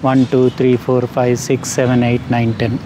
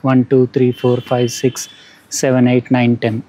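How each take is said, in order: First: Background noise is heard along with the voice. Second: Background noise is filtered out of the voice. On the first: "ఇది noise cancelling ఆఫ్" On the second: "ఇది noise cancelling on చేస్తే ఇట్లా ఉంది"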